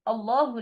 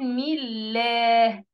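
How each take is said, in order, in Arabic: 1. اللام ثقيلة ومفخمة. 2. اللام خفيفة ورفيعة.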